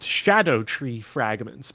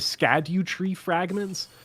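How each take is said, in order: First: The first word starts with an 'sh' sound. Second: The first word starts with an 'sk' sound. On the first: The speaker calls it right. "are pronounced Shadow tree fragments" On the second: The speaker calls it wrong. "I'm using their mispronunciations just for uh, phonetic clarity"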